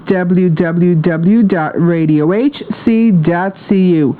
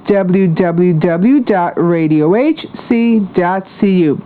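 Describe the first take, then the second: No difference in how they are said.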